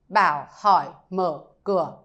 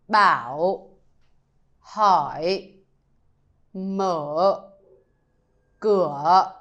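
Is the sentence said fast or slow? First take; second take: fast; slow. First: The sentence is said quickly. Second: The sentence is said slowly. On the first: "If I say it fast" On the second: "with a slow version first"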